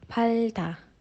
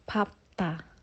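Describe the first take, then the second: First: The middle consonants are l then t. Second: The middle consonants are p then t. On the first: The speaker calls it wrong. "harusnya dibaca palta" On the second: The speaker calls it right. "cara baca yang tepat adalah papta"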